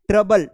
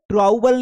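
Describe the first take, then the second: First: The first vowel sounds like 'uh'. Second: The first vowel sounds like 'ow'. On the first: The speaker calls it right. "इसको ट्रबल पढ़ना है" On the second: The speaker calls it wrong. "ट्राउबल नहीं पढ़ना है"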